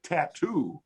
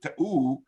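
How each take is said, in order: First: Said in the usual way. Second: Ta'oo with the middle T swallowed; dropped T's. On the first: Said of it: "meant tattoo". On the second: Shown as a demonstration. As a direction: say ta'oo, a catch in place of the T. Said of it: "to figure out that "ta'oo" meant tattoo".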